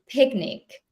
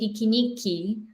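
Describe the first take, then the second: First: No extra vowels; the word ends on a consonant. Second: Extra vowels follow each consonant, ending in a vowel. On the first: The speaker calls it right. "we say picnic" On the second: The speaker calls it wrong. "We don't say pikiniki"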